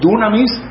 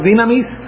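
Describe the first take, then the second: First: The first vowel sounds like 'oo'. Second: The first vowel sounds like 'ee'. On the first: "la palabra que tenemos aquí de nuevo en el griego es dunamis" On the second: "que se puede pronunciar dinamis"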